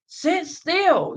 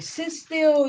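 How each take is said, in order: First: Much higher, louder barked command; harsh parent. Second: Higher, sharp mock command; stern parent. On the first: Retold or imitated. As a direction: yell it while gripping the child. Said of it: "put their child in a chokehold". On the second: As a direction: snap it at a fidgeting kid. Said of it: "they be telling their children".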